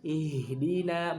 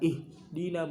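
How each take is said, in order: First: The h sound is drawn out and flowing. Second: The h sound is cut short and weak. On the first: The speaker calls it right. "haknya itu dialirkan" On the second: The speaker calls it wrong. "bukan seperti itu"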